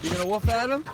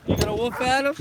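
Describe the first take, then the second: First: Said in the usual way. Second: High playful voice for the dog; pet talk. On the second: Real, not acted. Owner asks his dog Lily if she'll bark, high pet talk. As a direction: coo the question up high at the dog.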